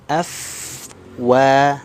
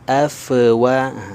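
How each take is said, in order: First: The f sound is held smoothly without bouncing. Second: The f sound bounces with an echo. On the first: The speaker calls it right. "tapi afwa" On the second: The speaker calls it wrong. "Huruf fa suka terpantul. Nah, ini juga kurang tepat ya. Jadi jangan kita membacanya"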